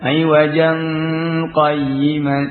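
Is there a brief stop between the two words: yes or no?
no. The two words run together without a stop. "Nun apa tanwin di sini bertemu dengan qaf dengan dibaca ikhfa"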